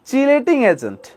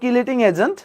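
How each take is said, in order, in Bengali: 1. প্রথম শব্দটি ch শব্দ দিয়ে শুরু হয়। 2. প্রথম শব্দটি k শব্দ দিয়ে শুরু হয়। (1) "অ্যাকচুয়াল প্রোনাউন্সিয়েশনটা কি চিলেট বা চিলেটিং এজেন্ট" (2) "বাংলায় বলা হয় কিলেটিং এজেন্ট"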